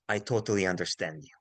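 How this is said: It is said in a calm, warm tone. The listener's doubts are shared and respected. The speaker calls it right. "with a calm voice, with a warm voice, smiling, nodding"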